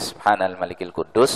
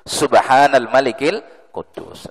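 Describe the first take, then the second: First: It is said at normal volume. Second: It is said louder, with a raised voice.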